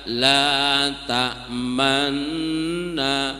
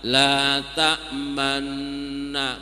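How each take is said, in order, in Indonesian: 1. Bibir membulat sebentar pada sengau ganda itu. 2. Bibir membulat sebentar pada sengau ganda itu.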